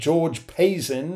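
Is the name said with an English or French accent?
English. The name is said with an English accent. This is how its owner says the name. "is how I think he pronounces it"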